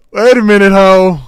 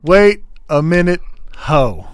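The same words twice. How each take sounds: First: Very loud, high-pitched yell; startled outburst. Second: Loud, high, broken into separate words; emphatic repeated outburst. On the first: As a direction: shout it out in one run, high and loud. Startled outburst at player's remark. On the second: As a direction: call it out loudly, word by word. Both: Real, not acted.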